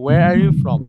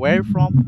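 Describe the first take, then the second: First: Every word, including 'are you', is pronounced. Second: The words 'are you' are dropped entirely. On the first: "ওরা কিন্তু বলে না যে ওয়ার আর ইউ from" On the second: "ওরা ওইভাবে বলছে যে ওয়ার ফ্রম"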